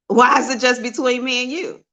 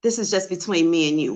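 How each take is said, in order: First: WHY hit high and loud, rising to the end; indignant question. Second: Said in the usual way. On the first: Real, not acted. Challenging a private message's secrecy, WHY punched high and questioning. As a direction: push back hard on "Why", voice climbing through the question.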